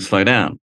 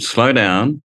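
First: It is said calmly, without extra force. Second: It is said emphatically, with extra force.

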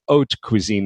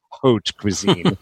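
First: The phrase is said without sounding silent letters. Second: The phrase is said sounding out every letter. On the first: The speaker calls it right. "It's haute cuisine" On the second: The speaker calls it wrong. "not haute cuisine. you know, you're not supposed to pronunciate"

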